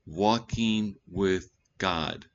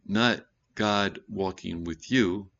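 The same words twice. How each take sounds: First: "walking" drawn out slowly and stressed; slow, deliberate "walking with God". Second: "you" held long and slow at the end; slow contrast landing on "you"; stress on you. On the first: Preacher stressing "walking" to the congregation. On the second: Preacher correcting the reversed phrase, slow stress. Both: Shown as a demonstration.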